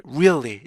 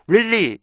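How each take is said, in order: First: "really" as ree-ul-lee with a middle beat; unhurried three-beat "really"; native-style REALLY. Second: "really" as two-syllable rilli; no middle glide in "really"; merged-vowel REALLY. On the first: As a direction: glide up and down through "really". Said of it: "원어민들이 really 이렇게 발음하다". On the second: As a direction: say "really" with one simple short vowel. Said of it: "나중에는 really 이렇게". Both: Shown as a demonstration.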